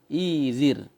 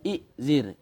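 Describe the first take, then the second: First: The word has a long vowel and no glottal stop. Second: The word has a glottal stop before the z. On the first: This is how the form is actually pronounced. "Maka bunyilah izir" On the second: This is the underlying original form. "Asalnya i'zir"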